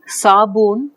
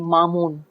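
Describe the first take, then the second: First: It starts with a non-nasal s sound. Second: It starts with a nasal m sound.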